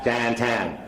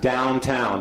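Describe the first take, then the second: First: It is said in a Pittsburgh local accent. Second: It is said in a standard American accent. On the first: "We say more like Downtown" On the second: "we don't say it exactly that way in Pittsburgh"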